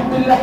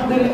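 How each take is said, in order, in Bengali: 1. এটা তাড়াহুড়ো করে বলা, স্বরের দৈর্ঘ্য বিকৃত। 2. এটা তাড়াহুড়ো করে বলা, স্বরের দৈর্ঘ্য বিকৃত।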